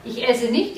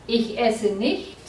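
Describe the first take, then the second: First: Said in the usual way. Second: Slow "Ich esse nicht" with "nicht" stressed and rising. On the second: Shown as a demonstration. Teacher to students, slowly stressing "nicht" in the model. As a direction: lean on "nicht" so students hear the negation. Teacher repeats corrected sentence.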